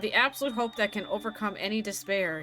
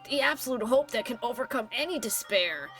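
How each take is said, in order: First: It is said in the speaker's own voice. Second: It is said imitating Nagito's voice.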